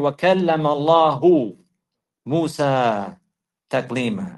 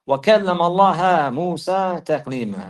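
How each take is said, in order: First: The word Allah ends with a 'u' vowel. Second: The word Allah ends with an 'a' vowel. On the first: God spoke to Moses directly. The speaker calls it right. "from having a dhamma" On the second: Moses spoke to God. The speaker calls it wrong. "to having a fatha"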